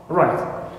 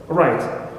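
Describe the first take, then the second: The two takes are said the same way.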